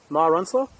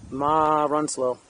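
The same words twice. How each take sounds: First: "Ma Runslow?" rising at the end, checking the name; "Runslow" lifted into a query; unsure question. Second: Said in the usual way. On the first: Shown as a demonstration. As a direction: ask "Runslow" back as a puzzled question.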